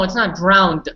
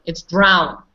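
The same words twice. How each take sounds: First: Drowned with the extra final d, as the error; corrective contrast. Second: Drown ending cleanly on n; falling, firm drown as the right form; corrective contrast. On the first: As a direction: sound the d on drowned to reject it. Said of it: "just say". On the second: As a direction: say drown with no final d. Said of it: "No, it's not drowned". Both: Shown as a demonstration.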